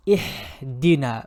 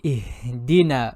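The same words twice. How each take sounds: First: Ihdina with a harsh mid-throat Ha; wrong Ha. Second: Ihdina with a soft, drawn-out breathy Ha from the bottom of the throat; soft dragged Ha. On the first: Teacher showing the mistaken Ihdina. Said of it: "Do not say Ihdina". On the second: Teacher slowly demonstrating soft Ha in Ihdina. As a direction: drag the Ha of Ihdina softly. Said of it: "Let it drag and say it softly". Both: Shown as a demonstration.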